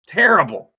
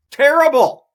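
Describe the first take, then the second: First: Said in the usual way. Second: High, loud exasperated cry of Terrible; shouted. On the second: Real, not acted. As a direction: yell Terrible. at the app. Ranting at the United app.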